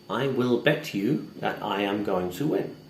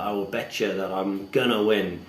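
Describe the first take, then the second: First: Every word is pronounced fully and separately. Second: The words are reduced and run together. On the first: The speaker calls it wrong. "we're not all robots living in England. We don't really speak like that" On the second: The speaker calls it right. "It sounds a little bit more betcha or betya"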